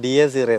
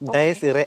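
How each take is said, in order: First: The first word begins with a 'dee' sound. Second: The first word begins with a 'dye' sound. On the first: The speaker calls it right. "ഇതിന്റെ ഉച്ചാരണം എന്ന് പറയുന്നത് ഡി എസ് ഇറ എന്നാണ്" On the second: The speaker calls it wrong. "ഡയസ് ഇറ അല്ല കേട്ടോ"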